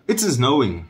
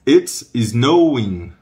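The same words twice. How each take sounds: First: Quick, linked "It's snowing"; conversational-pace repetition; natural speed. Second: Very slow, loud "It's snowing"; emphatic drawn-out teaching delivery; slow model. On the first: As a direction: say it in one brisk go. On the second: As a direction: stretch each word out firmly. Teacher slows the same phrase. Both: Shown as a demonstration.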